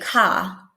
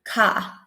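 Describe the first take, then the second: First: The final R is dropped, only the vowel. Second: The final R is dropped, only the vowel.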